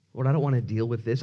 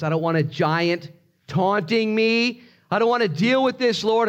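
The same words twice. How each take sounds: First: Said in the usual way. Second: High, insistent protest to God; acted desperate complaint; escalating plea. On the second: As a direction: plead harder, voice climbing high.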